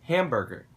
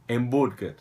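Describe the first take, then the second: First: It is pronounced the English way. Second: It is pronounced the Brazilian Portuguese way. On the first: "eu vou falar a pronúncia em inglês" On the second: "em vez de falar hambúrguer"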